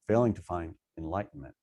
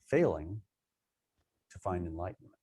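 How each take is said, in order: First: There is a pause after the word find. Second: There is a pause after the word failing. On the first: Enlightenment is what one fails to find. "It can be failing to find what?" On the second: Failing is a way to find enlightenment. "failing is a technique to help you find enlightenment"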